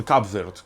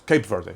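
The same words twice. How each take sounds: First: Cape Verde said as "kab verd"; first-take pronunciation. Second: Cape Verde said as "kayp VUR-day"; corrected English pronunciation. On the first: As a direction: say Cape Verde with "Cab" and a one-syllable "Verd". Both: Shown as a demonstration. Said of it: "Cape Verde, sorry".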